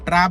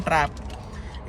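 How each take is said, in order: First: Said in the usual way. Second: ट्रैप said slowly and breathily, with a clear final p; clear correction. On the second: Shown as a demonstration. Correcting viewers who hear track, spells out ट्रैप slowly. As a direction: stretch out ट्रैप so the p is heard. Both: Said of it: "ट्रैप बोल रहा हूँ मैं".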